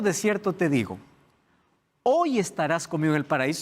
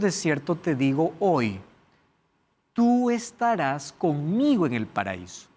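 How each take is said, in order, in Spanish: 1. La pausa va justo antes de la palabra 'hoy'. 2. La pausa va justo después de la palabra 'hoy'. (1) "Cuando yo digo" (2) "todo va a depender de donde ustedes coloquen la pausa"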